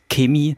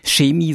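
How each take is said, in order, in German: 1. „Chemie“ wird so gesagt, wie Leute aus Bayern es sagen. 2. „Chemie“ wird so gesagt, wie Leute in Sachsen es sagen. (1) "Meine Frau, die aus Bayern kommt, sagt Chemie" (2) "in Sachsen, würde man Chemie sagen"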